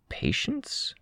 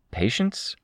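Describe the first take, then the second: First: "Patience" very high and much softer, rising; echoed question. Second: "Patience" higher, rising as a question. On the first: Crystal echoes the puzzled question, "Patience" soft and high. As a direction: echo "Patience" in a small high voice. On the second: Narrator asks Tristan what he means, "Patience" rising. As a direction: lift "Patience" into a puzzled query. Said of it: "I asked". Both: A narrator's reading.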